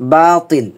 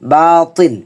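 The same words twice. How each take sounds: Both takes have the same delivery.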